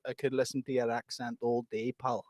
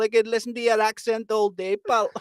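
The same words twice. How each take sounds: First: Put-on low, soft, understated Scottish accent; better Scottish accent. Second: High, botched Scottish with an Indian drift; Scottish accent turning Indian. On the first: Reading chat compliment to bandmate, understated Scottish accent. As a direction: read it softly in light Scottish. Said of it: "that was probably your best go". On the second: Acted. Repeating chat compliment, Scottish accent drifting Indian. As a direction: attempt Scottish and slide into Indian. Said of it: "you're becoming more Indian for some".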